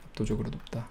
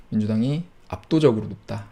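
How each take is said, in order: First: Soft, muttered repeat of 압도적으로 높다; hushed afterthought; quiet echo. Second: Said in the usual way. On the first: Shown as a demonstration. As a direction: let 압도적으로 높다 fall away, almost to himself. Quiet repeat of own statement.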